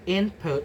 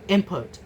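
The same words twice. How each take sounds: First: An n sound comes before the p. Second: An m sound comes before the p.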